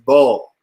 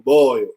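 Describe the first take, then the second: First: The vowel is a flat 'aw' sound. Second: The vowel is a clear 'oi' glide.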